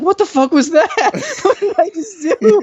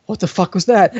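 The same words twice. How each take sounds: First: High-pitched imitation of panic, breaking into laughter; panic, hammed up and much higher; mock panic. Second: Said in the usual way. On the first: Friend panicking after staring the girl away, high mock panic. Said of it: "his expression turns to panic". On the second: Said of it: "I look at him and I'm like".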